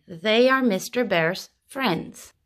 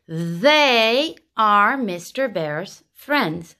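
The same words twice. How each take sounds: First: Said in the usual way. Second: THEY stretched out and stressed, pauses between words; THEY drawn long, then word by word; slow model sentence. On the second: Shown as a demonstration. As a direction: say it very slowly, leaning on THEY.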